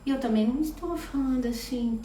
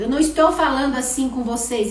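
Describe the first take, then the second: First: It is said in a sad, flat voice. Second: It is said in an angry voice.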